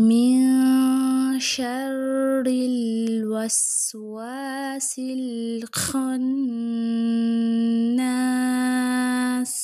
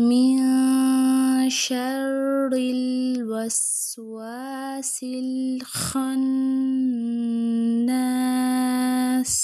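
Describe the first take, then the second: The two takes are said the same way.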